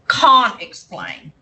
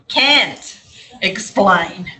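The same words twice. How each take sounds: First: It is said in a British accent. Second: It is said in an American accent.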